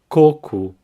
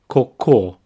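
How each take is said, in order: First: The stress is on the first syllable. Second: The stress is on the last syllable. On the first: It means coconut. "here the emphasis is in the first syllable" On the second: It means poo. "the stress is at the end"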